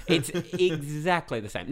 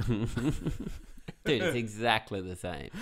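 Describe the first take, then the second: First: Louder, slower, laughing insistence. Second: Said in the usual way. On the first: Shown as a demonstration. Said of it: "repeated louder, laughing". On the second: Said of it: "repeated more emphatically".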